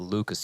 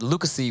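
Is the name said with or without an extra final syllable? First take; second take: without; with. First: The name ends without an added final syllable. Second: The name ends with an added 'ee' syllable. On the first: "you don't, you just ignore the one" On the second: "would sound a little weird"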